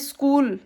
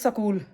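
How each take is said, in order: First: It is said with a standard English pronunciation. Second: It is said with a local desi pronunciation. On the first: The speaker calls it right. "जैसे स्कूल" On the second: The speaker calls it wrong. "अपनी देसी में उसमें बोल देंगे स्कूल, तो वो स्कूल गलत प्रोनाउंसिएशन है"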